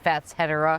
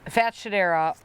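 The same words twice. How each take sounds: First: It is said with separate 's' and 'h', fats-hedera. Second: It is said with a 'sh' sound, fat-shedera. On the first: This keeps the parts of the two source names. The speaker calls it right. "if you want to pronounce it properly, apparently it's" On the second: This is the casual, popular way to say it. The speaker calls it wrong. "I think Fatshedera is more fun to say"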